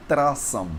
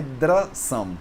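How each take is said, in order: First: Trasam with an unvoiced T into R; TR sound. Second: Drasam with a voiced D into R; DR sound. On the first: Teacher shows the sound not used, trasam with T. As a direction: start trasam on a hard TR. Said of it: "e não trasam". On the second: Teacher shows the sound that remains, drasam with D. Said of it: "O som que fica quando você pronuncia". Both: Shown as a demonstration.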